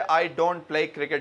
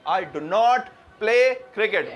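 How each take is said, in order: First: The negative is said plainly, without emphasis. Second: The negative is said with strong emphasis.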